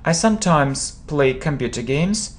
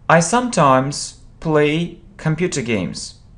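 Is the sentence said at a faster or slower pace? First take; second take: faster; slower. First: The sentence is said at a faster pace. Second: The sentence is said at a slower pace.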